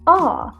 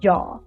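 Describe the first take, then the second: First: The word starts directly on the vowel sound. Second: The word starts with a clear J sound. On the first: "just skip the J in the beginning and just say ah" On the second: "we normally don't say this whole word"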